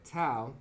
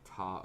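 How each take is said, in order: First: The vowel sounds like the one in cow. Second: The vowel sounds like the one in law.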